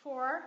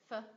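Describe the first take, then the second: First: "For" in full, stressed and loud; strong form. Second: "f" as weak, very short "fuh"; reduced form. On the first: Teacher contrasting forms for learners, strong "For". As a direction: say "For" with a long full vowel. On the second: Teacher showing a reduced function word, weak "f". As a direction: cut "f" down to a schwa. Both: Shown as a demonstration. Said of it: "phần reduced trong một function word".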